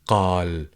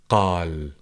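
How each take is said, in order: First: The word starts with a deep q sound. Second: The same.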